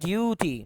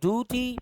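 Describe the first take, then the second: First: The d is followed by a yoo sound. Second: The d is followed by a plain oo sound. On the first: "British बोलेगा ड्यूटी" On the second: "American बोलेगा ड्यूटी"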